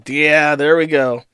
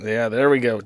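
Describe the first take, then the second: First: Louder, slow, triumphant yeah there we go. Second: Said in the usual way. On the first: Real, not acted. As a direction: savor the win, drawn out. Repeats line with emphasis.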